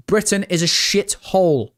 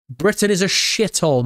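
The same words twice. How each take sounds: First: BRITAIN is a shithole, weight on Britain; to his chat, singling out the country itself, stressing Britain. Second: Britain IS a shithole, leaning hard on is; to his chat, insisting the country really is bad, stressing is. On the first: Hit Britain first, then let it fall. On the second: Punch the word is, let it fall. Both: Shown as a demonstration. Repeats the line, shifting stress.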